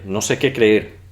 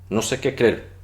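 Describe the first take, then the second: First: Creer is said with two separate e sounds. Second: Creer is said with a single merged e. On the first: This is the full standard form. "En vez de creer" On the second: This is the casual everyday form. "muchos lo pronuncian simplemente querer"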